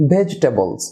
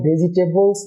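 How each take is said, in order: First: ভেজিটেবলস as "VEJ-tebols", falling; silent second syllable. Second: ভেজিটেবলস as "ve-ji-te-bols"; all four syllables. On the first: Teacher models the corrected word for viewers, syllable dropped. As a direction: drop the "i" in ভেজিটেবলস, stress first. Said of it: "ওই সিলেবলটি silent হয়ে যায়". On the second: Teacher shows viewers the form to avoid, four syllables. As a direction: say ভেজিটেবলস with the "i" after J sounded. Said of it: "না হয়ে হবে". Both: Shown as a demonstration.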